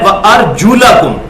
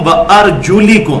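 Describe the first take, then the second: First: The vowel after 'arjul' is an 'a' sound. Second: The vowel after 'arjul' is an 'i' sound. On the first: The feet are not among the things to be wiped. "जबर आ गया" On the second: The feet are also to be wiped. "उसको जेर देगी"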